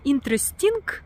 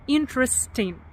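First: The word ends with a loud final g. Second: The word ends softly without a final g. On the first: The speaker calls it wrong. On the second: The speaker calls it right.

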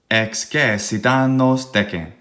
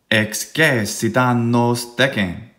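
First: It is said with strong beat-like stresses. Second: It is said with strong beat-like stresses.

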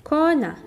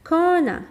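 The two takes are said the same way.

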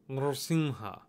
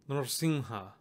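Both takes have the same delivery.

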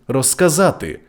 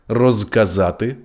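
First: The prefix ends in a voiceless s sound. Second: The prefix ends in a voiced z sound.

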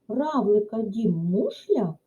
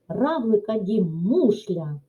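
First: It is said with a questioning, rising intonation. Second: It is said with an emphatic, exclamatory intonation. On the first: It asks something. "запитуємо" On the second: It asserts something with strong feeling. "Стверджуємо окликом"

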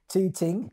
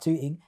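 First: The T sounds are pronounced clearly. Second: The T sounds are dropped or softened. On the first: "Pronounce the T's" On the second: "Now I say probably not Tooting"

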